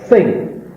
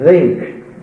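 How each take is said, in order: First: The th is voiceless, with a hissing sound. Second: The th is voiced, with a buzzing sound. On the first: The speaker calls it right. "you'd say think" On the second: The speaker calls it wrong. "You wouldn't say think"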